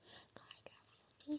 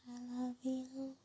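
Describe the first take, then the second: First: Soft, slow whispered I love you. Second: Said in the usual way. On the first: Real, not acted. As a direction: breathe it out tenderly, slow. Whispered sign-off.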